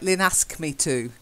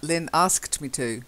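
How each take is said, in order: First: The ending sound of asked is dropped. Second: The ending sound of asked is clearly pronounced. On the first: The speaker calls it wrong. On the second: The speaker calls it right.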